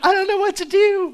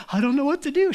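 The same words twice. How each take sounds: First: Much higher, louder, with a big grin; grinning confusion. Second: Mock cheerful confusion, higher; bingung tapi senang. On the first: Retold or imitated. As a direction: beam while saying you're lost. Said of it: "with this huge smile on her face". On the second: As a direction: driver sounding lost but pleased. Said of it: "the person driving is just like".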